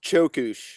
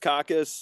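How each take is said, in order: First: It begins with a 'ch' sound and ends 'sh'. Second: It begins with a 'k' sound and ends 's'. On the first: The speaker calls it right. "It's pronounced chokush" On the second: The speaker calls it wrong. "varieties we've heard"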